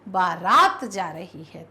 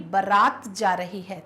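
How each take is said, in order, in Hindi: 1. पहले शब्द में दोनों स्वर लंबे हैं। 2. पहले शब्द में दोनों स्वर लंबे नहीं हैं। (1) "बा भी बड़ा, रा भी बड़ा" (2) "तो नहीं भाई"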